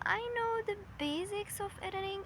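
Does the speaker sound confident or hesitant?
hesitant. It is said tentatively, after a hesitant filler. The speaker doubts their own skills. The speaker calls it wrong. "Versus saying, um"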